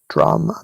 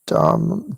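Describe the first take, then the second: First: The word is said with an R sound. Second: The word is said without an R sound. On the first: "the way actual Buddhists say it sounds like drama" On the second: "I'll say Dhamma, Dhamma, because they don't put an R in it in the spelling"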